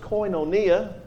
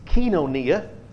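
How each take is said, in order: First: It is said in an older, non-modern pronunciation. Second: It is said in a modern Greek pronunciation.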